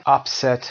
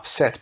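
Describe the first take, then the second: First: "upset" as UP-set, the noun; stress on first syllable. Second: "upset" as up-SET; stress on second syllable. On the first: Teacher offering two options, "upset" stressed on UP. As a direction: hit the start of "upset". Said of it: "استرس در قسمت اول میاد". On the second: Teacher offering two options, "upset" stressed on SET. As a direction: hit the end of "upset". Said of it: "Upset و upset دیگه noun نیست". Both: Shown as a demonstration.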